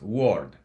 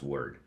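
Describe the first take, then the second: First: It is sounded out as it is spelled. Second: It has the standard English vowel sound. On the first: The speaker calls it wrong. "It's not pronounced word" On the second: The speaker calls it right. "in English, actually, it's pronounced word"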